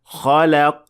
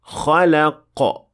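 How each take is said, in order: First: The final q is faint, with no bounce. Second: The final q is released with an audible bounce. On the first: The speaker calls it wrong. "The mistake sounds like this" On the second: The speaker calls it right. "you must apply qalqala to make sure that it is audible"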